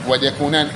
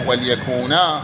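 First: The word ends with an 'n' sound. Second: The word ends with a long 'a'. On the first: This is the form in connected reading. "كما في سورة يوسف" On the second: This is the form when pausing on the word. "وقف الجميع عليهما بالألف"

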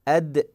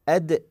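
First: The final d is released with an audible bounce. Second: The final d is released with an audible bounce.

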